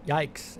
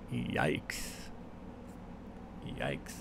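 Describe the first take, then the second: First: Yikes! tossed off as one flat word, not raised; a dry Yikes! as a rating; exclaimed yikes. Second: Yikes breathed as a low, much softer whisper; a hushed, voiceless Yikes. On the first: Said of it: "Exclamation point". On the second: Repeating his catchphrase. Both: Shown as a demonstration.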